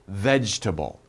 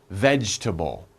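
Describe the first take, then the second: The two takes are said the same way.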